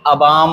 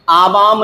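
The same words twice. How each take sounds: First: अवाम said as "a-vaam"; short first vowel. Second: आवाम said as "aa-vaam"; long first vowel. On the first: Teacher recapping, अवाम with short first a. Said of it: "अवाम होता है". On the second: Teacher recapping the mistake, आवाम with long aa. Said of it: "आवाम नहीं". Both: Shown as a demonstration.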